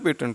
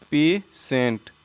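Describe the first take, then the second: First: The middle consonant is a 't' sound. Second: The middle consonant is a 'sh' sound. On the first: The speaker calls it wrong. "नहीं बोलते ना पेटेंट" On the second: The speaker calls it right. "तो इसे हम बोलते हैं पेशेंट"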